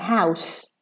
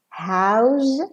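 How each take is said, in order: First: The final sound is an s. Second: The final sound is a z. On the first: It is used as a noun. "house with an S" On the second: It is used as a verb. "house with a Z"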